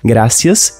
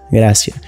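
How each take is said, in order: First: The final s sound is pronounced. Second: The final s sound is dropped.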